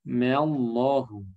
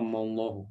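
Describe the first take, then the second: First: The m syllable is said light and thin. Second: The m syllable is said heavy and thick. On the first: The speaker calls it right. "Mimnya tipis" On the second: The speaker calls it wrong. "Bukan mallahu, ya, bukan, jangan ditebalkan"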